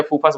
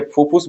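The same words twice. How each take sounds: First: "फूफास" में दूसरा स्वर अ; "फूफास" के अंत में "फस" बोलें; फूफास उच्चारण. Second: "फूफूस" में दोनों स्वर उ; "फूफूस" के अंत में "फुस" बोलें; फूफूस उच्चारण. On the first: ("फूफास", आख़िर में उ की जगह अ) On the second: ("फूफूस", आख़िर में उ की ध्वनि) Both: Shown as a demonstration. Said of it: "फूफूस बोलो या फूफास बोलो".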